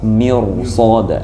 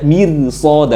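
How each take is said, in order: First: The r is pronounced heavy and thick. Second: The r is pronounced light and thin. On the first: The speaker calls it right. "harus tebal saja" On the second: The speaker calls it wrong. "Atau baca mirsoda nggak boleh"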